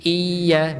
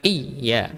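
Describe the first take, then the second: First: "iya" slow, i held into the y; flowing ya. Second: "iya" broken short after the i; unflowing ya. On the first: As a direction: draw out "iya" as "iiiya". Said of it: "mengalir. Kayak huruf ya sama". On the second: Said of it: "bukan iya". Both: Shown as a demonstration.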